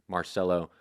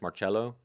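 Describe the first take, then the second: First: It uses the local New Orleans family pronunciation. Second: It uses the traditional original pronunciation. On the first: This is how the family in New Orleans said it. "in New Orleans, it's pronounced, they that, that family pronounced the name Marcello" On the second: This is the traditional form of the name. "The traditional correct, quote unquote, correct pronunciation is Marcello"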